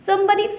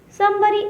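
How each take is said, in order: The two takes are said the same way.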